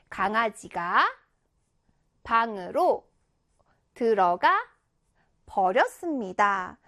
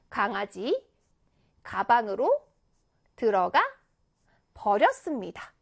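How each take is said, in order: First: The pause falls after 'gangajiga', before 'bang'. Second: The pause falls after 'gangaji', before 'gabang'.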